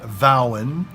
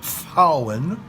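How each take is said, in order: First: The word begins with a v sound. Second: The word begins with an f sound. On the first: The speaker calls it wrong. "Not Vowen" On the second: The speaker calls it right. "but Fauen, as in Vogel"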